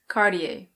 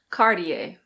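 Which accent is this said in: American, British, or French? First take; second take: American; American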